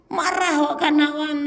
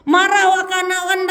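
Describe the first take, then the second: First: Said in the usual way. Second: Much higher, louder repeat of the phrase; angry raised-voice repeat. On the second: Shown as a demonstration. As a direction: shout it out like an angry scolding. Repeats phrase, second time shouted.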